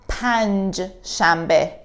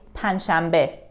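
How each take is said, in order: First: A j sound is heard after the n. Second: No j sound is heard after the n. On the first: This is how it is written. The speaker calls it wrong. "it is written like this" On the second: This is how people really say it. The speaker calls it right. "in reality, we say panshambe"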